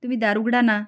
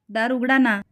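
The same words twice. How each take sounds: First: Said in the usual way. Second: Rising plea. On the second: A narrator's reading. Savali begging them to open the door, mildly tearful. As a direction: pitch lifts on उघडा in a mild tearful plea. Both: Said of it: "सावली रडत म्हणते".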